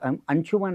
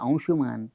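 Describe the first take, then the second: First: The vowel in the last syllable is short. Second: The vowel in the last syllable is long. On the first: The speaker calls it wrong. "त्यांना माहीत अंशुमन म्हणतात. अंशुमन नाही" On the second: The speaker calls it right.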